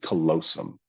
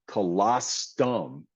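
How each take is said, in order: First: The word has no t sound. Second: The word has an added t sound. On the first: The speaker calls it right. "So it's callosum" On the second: The speaker calls it wrong. "she added a T into it"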